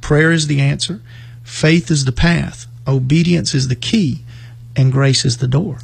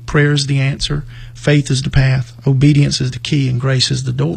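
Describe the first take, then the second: First: It is said slowly. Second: It is said at a normal pace.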